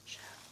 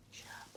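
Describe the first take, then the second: No difference in how they are said.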